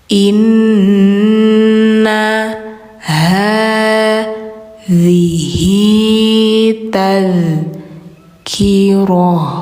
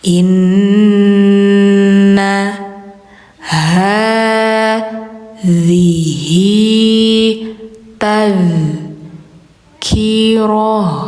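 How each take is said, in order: The two takes are said the same way.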